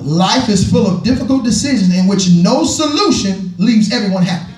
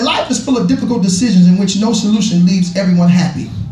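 First: It is read more slowly. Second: It is read at a normal pace.

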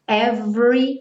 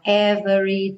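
First: The middle vowel is dropped, going straight to R. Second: The middle vowel is pronounced, giving three syllables. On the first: The speaker calls it right. "como se fosse do V direto para o R" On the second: The speaker calls it wrong. "cuidado para não falar every time"

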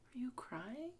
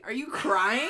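First: It sounds sincere and concerned. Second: It sounds teasing and mocking.

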